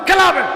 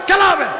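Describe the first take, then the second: The two takes are said the same way.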